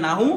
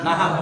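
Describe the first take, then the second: First: "নাহু" with a final open u, pitched up; wrong pronunciation. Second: "নাহাব" as na-hab, falling at the end; correct pronunciation. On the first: Teacher rejecting the common form, "নাহু" ending in u. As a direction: say "নাহু" as na-hu, rising. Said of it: "এটা কিন্তু কি নয়". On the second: Teacher answering what it originally is, "নাহাব" without final u. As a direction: say "নাহাব" with a second a, closed by a consonant. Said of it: "এটা মূলত কি?". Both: Shown as a demonstration.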